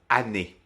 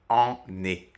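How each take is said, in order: First: The first vowel is oral, not nasal. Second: The first vowel is nasal. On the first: The speaker calls it right. "le son nasal disparaît" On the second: The speaker calls it wrong. "et non pas"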